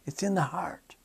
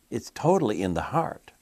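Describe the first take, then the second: First: "It's in the heart" whispered, higher and unvoiced; a hushed, intimate "It's in the heart". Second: Said in the usual way. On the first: Shown as a demonstration. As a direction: drop to a secret whisper on "in the heart".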